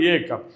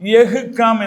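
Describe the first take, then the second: First: The first word is pronounced as ye. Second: The first word is pronounced as yah. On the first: The speaker calls it right. "സംസാരിക്കുമ്പോൾ ഏ calm" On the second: The speaker calls it wrong. "അങ്ങനെ വായിക്കാനേ പാടില്ല"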